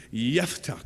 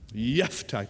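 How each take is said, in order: First: The name begins with a Y sound. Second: The name begins with a Y sound.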